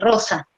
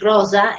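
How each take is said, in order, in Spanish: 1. La s se pronuncia a la manera española. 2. La s se pronuncia a la manera italiana. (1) "en vez de" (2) "la ese sibilante del italiano cuando dice rosa"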